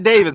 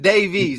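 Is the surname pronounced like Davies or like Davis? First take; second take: Davis; Davies. First: The name sounds like Davis, ending in -vis. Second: The name sounds like Davies, ending in -vies. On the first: The speaker calls it wrong. "Not Davis" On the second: The speaker calls it right. "His name is Davies"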